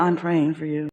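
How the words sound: It is said in a sad, heavy tone. The speaker has already judged the listener. "they sound so sad when they do it"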